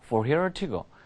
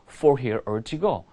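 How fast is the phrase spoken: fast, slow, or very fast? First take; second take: very fast; fast. First: The phrase is spoken at a very fast pace. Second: The phrase is spoken at a fast pace. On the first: "더 빨리 얘기해볼게요" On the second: "빨리 말해볼게요"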